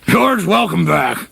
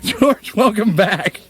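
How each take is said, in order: First: It is said in a put-on character voice. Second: It is said in his normal voice.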